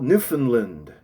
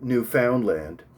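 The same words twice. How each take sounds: First: The last two syllables are made to rhyme. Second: Every syllable is said just as spelled. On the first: "The attempt to rhyme the last two syllables" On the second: "Although this is how it is spelt"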